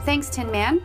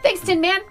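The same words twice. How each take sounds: First: The phrase is said at a slower pace. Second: The phrase is said at a faster pace.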